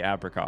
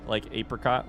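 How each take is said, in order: First: The first vowel is a short A, like apple. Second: The first vowel is a long A, like eight. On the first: "I have heard many people in my life say apricot" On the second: "It's the long A, like apricot, like eight"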